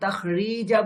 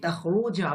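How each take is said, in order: First: The vowel after the r is i. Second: The vowel after the r is u. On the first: The speaker calls it wrong. "আমি তাখরিজা বলছি না" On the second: The speaker calls it right. "আমি তাখরু বলছি"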